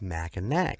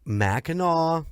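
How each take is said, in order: First: The name is said as spelled, ending in k. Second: The name ends in an aw sound, no k. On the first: The speaker calls it wrong. "I went with Mackinac because that's how it's spelled" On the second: The speaker calls it right. "Mackinac is the way it's pronounced"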